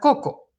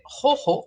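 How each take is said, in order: First: The consonants are plain k sounds. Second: The consonants are made deep in the throat. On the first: This is the simplified Spanish adaptation. "simplificamos ese sonido ... a la oclusiva normal de la C" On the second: This is the original Quechua pronunciation. "una palabra difícil de pronunciar para alguien que habla castellano"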